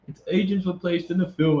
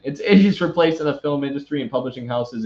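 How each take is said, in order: First: Reading in a put-on British accent; lightly done British accent, newsreader style. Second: Said in the usual way. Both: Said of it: "I'm done with the British accent".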